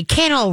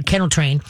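First: Bright call of kennel, pitched high and cheerful; upbeat happy kennel cue; real happy. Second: Said in the usual way. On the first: Shown as a demonstration. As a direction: sing out kennel like it's a treat. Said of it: "real happy". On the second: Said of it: "Kennel," real happy".

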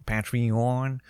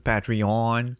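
First: Patreon said with a French a, pa-tri-on; French-accented Patreon. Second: Patreon said the English way, pæ-tree-on. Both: Shown as a demonstration. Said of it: "avec mon accent".

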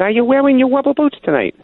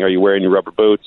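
First: "Are you wearing your rubber boots tonight?" in a high, put-on caller voice, stressing boots; prank caller voice. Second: Said in the usual way. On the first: Caller repeats his rubber boots question to the sportscaster, high mock voice. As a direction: ham up the weird caller as he asks the same question again. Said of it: "He said". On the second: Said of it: "people started harassing me every day saying".

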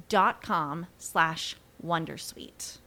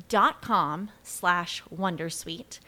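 The two takes are said the same way.

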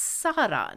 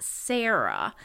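First: "Sarah" said SAH-ra; Welsh-style Sarah. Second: "Sarah" said SAIR-uh; "Sarah" with the usual English AIR vowel; American-style Sarah. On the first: Host showing how the doctor's name is pronounced, SAH-ra. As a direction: open AH in the first syllable of "Sarah". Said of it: "her name is pronounced Sarah". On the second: Host showing how not to say the name, SAIR-uh. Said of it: "not Sarah". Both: Shown as a demonstration.

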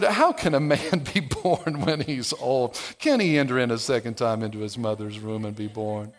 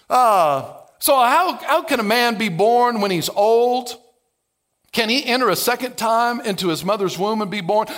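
First: Condescending. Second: Lightly sarcastic Nicodemus asking Jesus; sarcastic question. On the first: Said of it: "starts to be a little bit condescending". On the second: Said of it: "Notice the layer of sarcasm". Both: Retold or imitated.

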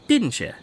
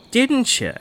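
First: Pushier teasing. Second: High needling tease. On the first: Teasing, rising insistence. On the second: Friend needles Pat about the Goat Man, high and teasing. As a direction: pitch climbs up, needling harder. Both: Acted.

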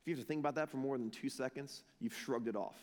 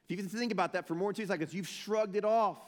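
First: Low, soft, quick conviction; hushed, sobering aside to the room; quiet challenge. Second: Quick run-up, then "shrugged it off" pushed harder; full-voiced challenge, ending punched; emphatic challenge. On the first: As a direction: drop it low and soft, letting it sink in. Soft reflective first take of challenge. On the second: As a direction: rattle through, then land firmly on "off". Same challenge repeated with more force. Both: Real, not acted.

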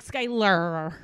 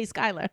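First: "Skylar" with a long, hard final R; extra R. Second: Said in the usual way. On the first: Retold or imitated. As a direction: stretch the R at the end of "Skylar". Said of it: "because there is an R in there". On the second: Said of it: "even though I won't, I say Skylar".

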